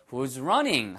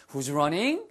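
First: "running" dropping at the end; falling intonation. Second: "running" lifted at the end like a question; rising intonation. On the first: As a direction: let the pitch fall away on "running". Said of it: "falling intonation으로 하셔야 더 정확합니다". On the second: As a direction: let the pitch climb on "running". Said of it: "끝을 올려서 말씀하지 않으셔도 돼요". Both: Shown as a demonstration.

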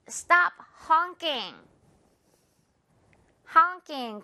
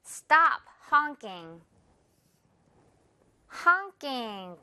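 First: Slow, ng in honking; slow drill. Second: Again slowly, ng in honking; slow drill. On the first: Teacher models for repeat, slow. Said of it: "이응 발음이요". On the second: Teacher repeats model, slow. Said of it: "One more time". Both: Shown as a demonstration. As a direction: Stop honking said very slowly, honk as aŋk.

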